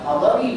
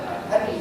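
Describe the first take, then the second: First: The word flows as one smooth unit. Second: The word breaks into two separate parts. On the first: The speaker calls it right. "Benar Islam hadari" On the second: The speaker calls it wrong. "bukan had hari"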